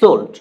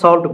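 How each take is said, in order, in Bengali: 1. স্বরধ্বনিটি 'o'-এর মতো শোনায়। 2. স্বরধ্বনিটি ছোট 'a'-এর মতো শোনায়। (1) "কিন্তু উচ্চারণটা হবে সোল্ট" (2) "আমরা সল্ট বলি"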